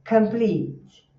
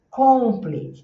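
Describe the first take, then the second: First: The first vowel is short and unrounded. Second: The first vowel is a rounded o sound. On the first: The speaker calls it right. "But in English... o C virou K" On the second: The speaker calls it wrong. "o brasileiro falar assim, complete. Tá vendo aqui na boquinha de ovo?"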